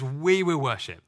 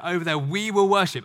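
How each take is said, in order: First: We punched, the rest falling away; stress on We. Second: Will leaned on and falling; "Over there, we will worship" with will stressed. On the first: Preacher stressing We to show the plural. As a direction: hit We to show it's plural. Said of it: "and it's plural". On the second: Preacher quoting his question with will stressed. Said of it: "the Hebrew is, it's plural". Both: Shown as a demonstration.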